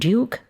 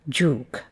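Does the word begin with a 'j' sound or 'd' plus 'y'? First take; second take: d plus y; j. First: It begins with d followed by a y sound. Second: It begins with a merged j sound.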